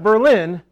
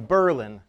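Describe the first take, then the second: First: The stress falls on the usual syllable. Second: The stress falls on a different syllable. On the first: This is how the foreign city is said. The speaker calls it right. "Not Berlin" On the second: This is how the local town is said. The speaker calls it wrong. "there's an accent on the wrong syllable"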